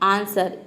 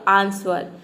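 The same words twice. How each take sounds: First: It is said with no w sound. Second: It is said with a w sound after s. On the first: The speaker calls it right. "ये हम pronounce करते हैं आंसर" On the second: The speaker calls it wrong. "अगर वो को यहाँ पे pronounce कर देंगे तो ये हो जाएगा"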